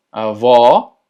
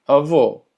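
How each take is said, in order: First: Avó with open, loud final o. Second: Avó said with a closed final o; closed avô. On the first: Teacher models grandmother, open avó. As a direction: open the stressed ó of avó wide. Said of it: "el cual es abierto". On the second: Teacher models grandfather, avó with closed o. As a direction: round and close the last vowel of avó. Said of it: "que la pronunciación sea cerrada". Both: Shown as a demonstration.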